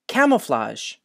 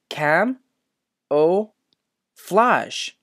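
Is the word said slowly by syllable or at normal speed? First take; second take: normal speed; slowly. First: The word is said smoothly at normal speed. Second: The word is said slowly, syllable by syllable.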